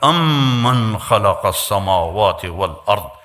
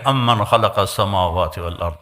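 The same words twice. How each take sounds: First: It is said with a proud, majestic tone. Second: It is said plainly, without pride.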